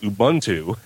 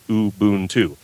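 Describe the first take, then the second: First: The U vowels have different, English-style sounds. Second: Both U vowels have the same sound. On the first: The speaker calls it wrong. "that's an English way to" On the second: The speaker calls it right. "the U is always sounds the same"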